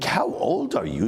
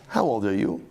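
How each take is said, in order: First: It is asked in shock at someone's appearance. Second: It is asked as a plain, neutral question.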